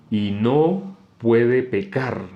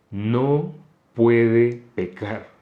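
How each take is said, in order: First: "no puede pecar" read very slowly, each word weighted; stressed reading. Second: "No" set apart by a pause, then "puede pecar" drawn out very slowly; stress on puede pecar. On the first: (énfasis lento en "no puede pecar") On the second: (pausa tras "No" y "puede pecar" muy lento y marcado) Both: Shown as a demonstration. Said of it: "en qué frase me tocó hacer énfasis".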